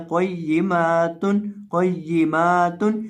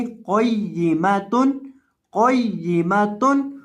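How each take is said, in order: First: क़य्यिमातुन with the मा stretched long; wrong long meem. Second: क़य्यिमतुन with a short मि, no lengthening; short meem. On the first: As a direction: add a long a after meem as a mistake. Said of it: "अक्सर लोग इसको लंबा कर देते हैं". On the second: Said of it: "मीम को यहाँ लंबा नहीं होने देना". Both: Shown as a demonstration.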